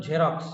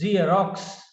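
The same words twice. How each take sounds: First: Xerox said as jerox, with a j sound at the start; wrong pronunciation shown. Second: Xerox said as zee-rox, starting with a z sound; correct pronunciation. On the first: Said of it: "It is not Xerox". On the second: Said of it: "It is Xerox". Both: Shown as a demonstration.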